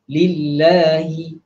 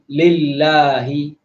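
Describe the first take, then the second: First: The first vowel is a close i, mouth narrow. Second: The first vowel is opened with the mouth wide. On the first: The speaker calls it right. "Begitu juga kasrah, baris bawah, li, lillahi" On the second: The speaker calls it wrong. "bukan lillahi ... tak perlu kepada buka mulut luas sangat"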